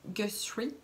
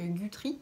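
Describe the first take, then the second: First: The middle is said with an s-sh sound. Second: The middle is said with a th sound. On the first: This is how someone else pronounces it. The speaker calls it right. "Marie-Alix qui le prononce comme ça" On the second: This is how the speaker used to pronounce it. The speaker calls it wrong. "c'est vrai que c'est peut-être mieux que Guthrie"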